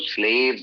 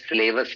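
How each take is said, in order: First: The word ends in a single syllable with 'vz'. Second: The word ends with an extra 'us' syllable. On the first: The speaker calls it right. "Plural जो होता है तो स्लेव्स होता है" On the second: The speaker calls it wrong. "स्लेवस नहीं होता"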